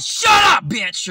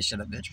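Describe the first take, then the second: First: Sudden high, loud yell; shouted comeback. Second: Said in the usual way. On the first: Retold or imitated. Employee snapping back at his new manager, exaggerated shout. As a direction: explode on "Shut up", then drop on "bitch".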